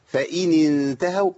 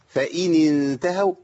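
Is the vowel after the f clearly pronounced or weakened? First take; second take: clear; clear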